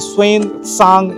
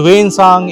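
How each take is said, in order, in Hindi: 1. नाम की शुरुआत 'sw' ध्वनि से होती है। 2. नाम की शुरुआत सादी 'w' ध्वनि से होती है। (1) "तो शायद यही इसका सही प्रोनाउंसिएशन होता होगा।" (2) "हम बोलते हैं वेन सांग"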